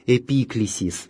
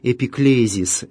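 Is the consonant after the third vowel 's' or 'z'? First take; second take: s; z. First: The consonant after the third vowel is 's'. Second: The consonant after the third vowel is 'z'. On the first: This is the original Greek form. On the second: This is the Latinized form.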